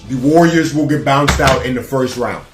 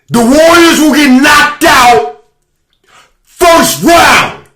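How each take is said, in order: First: It is said at normal volume. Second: It is said much louder.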